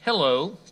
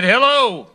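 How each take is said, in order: First: Soft, easy hello, quieter and unhurried; calm hello. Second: Curt hello, pitched higher and louder; violent hello. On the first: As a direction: answer sweetly to needle him. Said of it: "The father calmly said". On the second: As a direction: bark hello at a pest caller. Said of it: "the violent voice on the other end said". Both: Acted.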